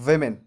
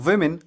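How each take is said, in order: First: The first syllable sounds like 'vih'. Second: The first syllable sounds like 'vih'.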